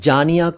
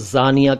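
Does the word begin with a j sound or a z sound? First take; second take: j sound; z sound. First: The word begins with a j sound. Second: The word begins with a z sound. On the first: Beloved. "जा के नीचे नुक्ता नहीं हो तो वो जानिया पढ़ा जाएगा" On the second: An adulteress. "उस जानी शब्द का स्त्रीलिंग है जानिया"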